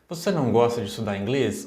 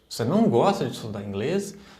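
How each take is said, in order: First: The question sounds interested. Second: The question sounds surprised.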